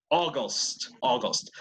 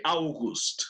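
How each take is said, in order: First: August starting with an O vowel. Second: August starting with "ow"; said as spelled. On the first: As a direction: say August as "o-gost". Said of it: "Ajá, como O". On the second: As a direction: say August as "au-gust", letter by letter. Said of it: "Se escribe August". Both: Shown as a demonstration.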